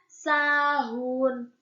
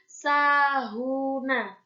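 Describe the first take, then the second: First: The word ends on the consonant n. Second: The word ends with an added vowel a. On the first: The reader stops at the end of the word. The speaker calls it right. "Karena dia dibaca sahun" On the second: The reader continues without stopping. The speaker calls it wrong. "bukan dibaca sahuna"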